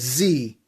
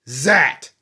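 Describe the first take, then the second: First: The letter name ends in a long ee sound. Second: The letter name ends in an eh-d sound. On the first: This is the American way to say it. "the United States they pronounce the word Z as Z" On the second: This is the British, Australian and New Zealand way to say it. "they pronounce Z as Zat"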